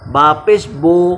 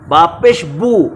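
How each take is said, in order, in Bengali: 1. b-এর পরের স্বরধ্বনিটি একটি 'oh' ধ্বনি। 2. b-এর পরের স্বরধ্বনিটি একটি 'oo' ধ্বনি। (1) "তেতিয়াহ'লে পেশৰ মজহুল হ'ব" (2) "মাৰুফ হ'ব"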